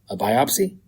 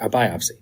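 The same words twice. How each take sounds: First: It rises at the end like a question. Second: It falls at the end like a statement.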